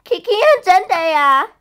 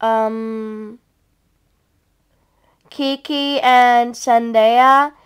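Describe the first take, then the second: First: Higher, lively introduction; perky announcement. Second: Slow, drawn-out recital of names; hesitant. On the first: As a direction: announce the names with pep. Second take, after "Oh, yeah. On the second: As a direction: draw each name out, unsure. First take, recalling the names. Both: Pretend.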